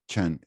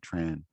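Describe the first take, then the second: First: The name is said the northern Vietnamese way. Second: The name is said the English way. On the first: "In the north, it's pronounced Chen" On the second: "when you go to English speaking countries, they say Tran"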